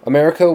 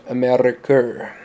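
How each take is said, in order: First: Said in the usual way. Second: "Ameriker" with a rolled R and an "er" ending. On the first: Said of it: "America would have come out Ameriker". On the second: Shown as a demonstration. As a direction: roll the R in "Ameriker" like a toy engine. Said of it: "with the R being rolled".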